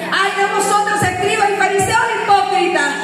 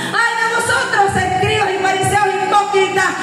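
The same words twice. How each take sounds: The two takes are said the same way.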